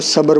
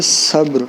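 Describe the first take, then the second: First: صبر as two syllables "sa-bar"; common mispronunciation. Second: صبر as one syllable "sabr"; correct pronunciation. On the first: Teacher quoting how some people read it, صبر as "sa-bar". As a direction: say صبر with an added vowel, "sabar". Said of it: "بعض لوگ اس کو صبر پڑھتے ہیں". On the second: Teacher correcting the word for students, صبر as "sabr". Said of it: "تو یہ لفظ ہے صبر". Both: Shown as a demonstration.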